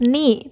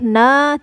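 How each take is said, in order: First: The n is followed by an i vowel. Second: The n is followed by an a vowel. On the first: The speaker calls it right. "harus ni" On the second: The speaker calls it wrong. "tidak boleh na"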